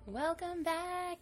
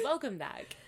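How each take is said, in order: First: It is said with very high, peppy energy. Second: It is said more calmly, less peppy.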